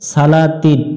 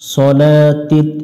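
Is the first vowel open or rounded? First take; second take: open; rounded. First: The first syllable has an open 'a' vowel. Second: The first syllable has a heavy rounded 'o' vowel. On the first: The speaker calls it wrong. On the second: The speaker calls it right.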